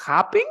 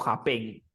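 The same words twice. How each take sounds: First: "Happen" stressed on HAP, loud and questioning; stress on first syllable. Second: "happen" stressed on the last syllable, hap-PEN; misplaced stress, "happen" as hap-PEN; wrong final stress. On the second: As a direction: push the weight onto -pen in "happen". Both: Shown as a demonstration. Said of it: "¿Cómo se dice?".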